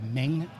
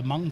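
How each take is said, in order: First: The vowel sounds like 'eh', as in 'length'. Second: The vowel sounds like 'uh', as in 'hung'. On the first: This is how other people commonly say it. "or as other people say" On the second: This is how the makers themselves say it. "they told me themselves it's pronounced Mung"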